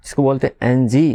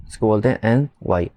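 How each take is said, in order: First: "एन जी" lifted up at the end like a doubtful guess; the wrong spelling tried out with a questioning rise; rising wrong answer. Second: Said in the usual way. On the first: Shown as a demonstration. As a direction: let "जी" rise as if asking.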